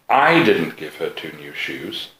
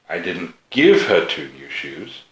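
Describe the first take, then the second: First: The word "I" carries the main stress. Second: The word "give" carries the main stress. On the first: Someone else gave her the shoes. "She's got two new shoes, but they didn't come from me" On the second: She paid for the shoes herself. "They did come from me, but she had to pay for them"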